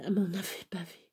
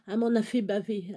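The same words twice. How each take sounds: First: Reprise chuchotée, plus douce; chuchoté. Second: Said in the usual way. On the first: Real, not acted. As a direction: chuchote la même phrase, presque pour soi. Répète la phrase deux fois. (répétition chuchotée)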